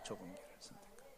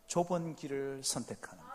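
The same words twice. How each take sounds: First: Much softer, quick echo; soft repeat. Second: Said in the usual way. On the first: Shown as a demonstration. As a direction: let it drop to near a murmur. Quiet repeat of key phrase. (작고 빠르게 되뇌듯)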